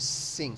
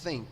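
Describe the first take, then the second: First: It begins with a plain s sound. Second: It begins with a th sound, tongue between teeth. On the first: The speaker calls it wrong. "em vez de" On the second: The speaker calls it right. "você prende a língua e finge que, você finge que você tem a língua presa assim, e aí você fala think"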